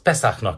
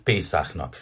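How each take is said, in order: First: The first vowel is an open short e. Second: The first vowel is a closed long é. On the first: The speaker calls it right. "azaz Pesachnak kell mondani" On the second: The speaker calls it wrong. "nem pedig Pészáchnak"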